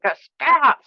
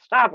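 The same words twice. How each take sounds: First: A higher, firmer stop; angry stop. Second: Clamp down and let the repeat drop; angry stop. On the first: Teacher demonstrating anger: first, higher stop. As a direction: push back with the first stop. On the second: Teacher demonstrating anger: second, falling stop. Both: Shown as a demonstration. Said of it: "I'm even like".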